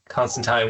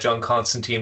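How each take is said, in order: First: The name has a non-American pronunciation. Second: The name has an American pronunciation. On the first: The speaker calls it right. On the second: The speaker calls it wrong.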